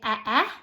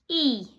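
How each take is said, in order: First: Two short separate vowel sounds are said. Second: One single long vowel sound is said. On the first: The speaker calls it wrong. "We don't say eh eh" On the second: The speaker calls it right. "we say E"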